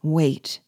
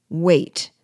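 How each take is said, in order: First: Said in the usual way. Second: A louder scornful "wait"; exclaimed. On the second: A narrator's reading. De Rouvray mocking the call to wait, loud exclaim. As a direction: throw the second "wait" back loud. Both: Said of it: "exclaimed Monsieur de Rouvray".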